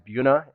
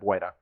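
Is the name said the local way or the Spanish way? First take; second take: local; Spanish. First: The first syllable is said without the "bwe" sound. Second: The first syllable is said with the "bwe" sound. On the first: This is how the town says it. "why it is Buena" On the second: This is the proper Spanish pronunciation. "proper Spanish, it is Buena"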